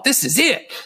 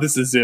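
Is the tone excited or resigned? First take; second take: excited; resigned. First: It is said with an excited, upbeat tone. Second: It is said with a grim, resigned tone. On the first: This moment is great. "y'all use that as like a positive thing. Like, y'all at a party" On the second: This is the end. "no, this is it. I'm done"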